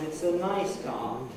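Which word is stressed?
nice. The main stress falls on the word nice. The car is already known; the new information is its quality. The speaker calls it right. "Car was already mentioned"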